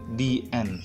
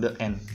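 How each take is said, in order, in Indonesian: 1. 'The' diucapkan dengan vokal 'ee' yang panjang. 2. 'The' diucapkan dengan vokal 'uh' yang pendek. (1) "maka bacanya di" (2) "bukan the end"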